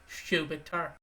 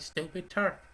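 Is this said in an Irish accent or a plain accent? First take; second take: Irish; plain. First: It is said in an Irish accent, heavier S. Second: It is said in a plain, non-Irish accent.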